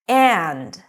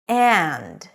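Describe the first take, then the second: First: It is said in full with the d. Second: It is said in full with the d.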